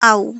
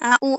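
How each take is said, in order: First: The two vowels are blended into one syllable. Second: The two vowels are said separately with a break. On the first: The speaker calls it right. "মিলায় বলতে হবে। ... একটা ওয়ার্ডের মতন করে" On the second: The speaker calls it wrong. "এভাবে না।"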